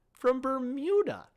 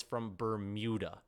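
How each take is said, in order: First: High, loud disbelieving repeat of Bermuda; incredulous echo. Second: Said in the usual way. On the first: Retold or imitated. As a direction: say "From Bermuda" like you can't believe it, jumping up high.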